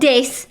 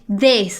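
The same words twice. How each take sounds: First: The word begins with a sound other than 'th'. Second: The word begins with a clear 'th' sound. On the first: The speaker calls it wrong. "not this" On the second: The speaker calls it right. "T H, this"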